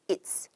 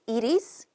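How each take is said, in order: First: It is is shortened into one syllable. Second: It is is said as two full words.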